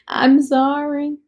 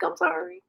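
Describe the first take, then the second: First: Slow sorry, laughing through it; laughing apology. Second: High, teasing sorry with a rising end; mock apology. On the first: Real, not acted. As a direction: laugh it out slowly, half apologising. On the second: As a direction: apologise playfully, not meaning it. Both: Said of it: "Am I problematic?".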